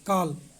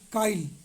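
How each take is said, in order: First: No vowel is inserted before the final consonant. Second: An 'i' vowel is inserted before the final consonant.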